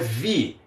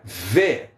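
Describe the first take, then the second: First: The vowel sounds like 'ee'. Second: The vowel sounds like 'eh'. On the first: The speaker calls it wrong. "não é vi" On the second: The speaker calls it right. "as letras Is têm som de E"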